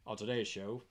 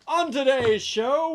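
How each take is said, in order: First: It is said in a news reporter voice. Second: It is said in a theatrical Shakespearean voice. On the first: "I feel like a news reporter" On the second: "That sounds more like Shakespeare"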